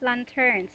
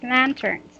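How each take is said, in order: First: The stress is on the second syllable. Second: The stress is on the first syllable. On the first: The speaker calls it wrong. "this is not lanterns" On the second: The speaker calls it right. "Your intonation is at first syllable"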